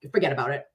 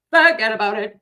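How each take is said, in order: First: Said in the usual way. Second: Loud Boston "Forget about it" with a dropped r in "Forget"; big-mouth Boston broad, "Forget about it" belted out; Boston accent. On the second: Shown as a demonstration. Dorchester native shows her Boston accent, belted louder. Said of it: "I just am a big mouth broad".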